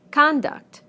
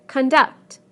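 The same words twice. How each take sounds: First: Conduct as a noun, CON-duct; higher, falling, first syllable of Conduct stressed. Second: Conduct as a verb, con-DUCT; weak first syllable, strong DUCT in conduct; second-syllable stress. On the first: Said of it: "we stress the first syllable in the nouns". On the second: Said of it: "the second syllable in the verbs". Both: Shown as a demonstration.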